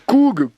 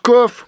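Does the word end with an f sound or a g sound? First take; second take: g sound; f sound. First: The word ends with a hard g sound. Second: The word ends with an f sound. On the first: "Si coug, coug, ça veut dire tousser" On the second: "ça se prononce coff"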